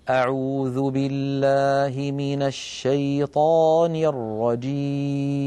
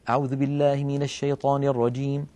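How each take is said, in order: First: It is recited slowly and calmly. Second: It is recited quickly.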